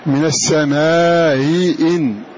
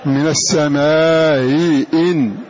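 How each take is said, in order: No difference in how they are said.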